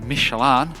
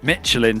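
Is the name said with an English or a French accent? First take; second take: French; English. First: The name is said with a French accent. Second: The name is said with an English accent. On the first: The speaker calls it right. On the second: The speaker calls it wrong.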